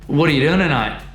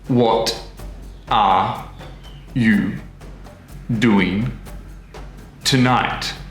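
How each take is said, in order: First: The t becomes d and the words blur together. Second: Each word is said separately and in full. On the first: "everything gets a bit messy... the t sound at the end of what actually becomes a d sound" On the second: "the words are all in their individual pots... in their perfect citation form"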